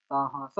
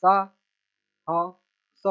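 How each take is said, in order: First: Said in the usual way. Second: Very slow, each syllable held apart. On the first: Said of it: "इसको बस मिला के पढ़ना है". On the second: Shown as a demonstration. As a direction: sound it out piece by piece for a learner. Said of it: "छोटा सा letter पढ़ लेना".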